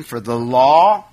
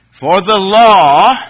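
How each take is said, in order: First: Said in the usual way. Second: "law" said slow, loud and rising; emphatic. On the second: Shown as a demonstration. Preacher announcing verse two to the congregation, emphatic. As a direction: boom out "For the law" to open the verse. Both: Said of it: "Here's the key".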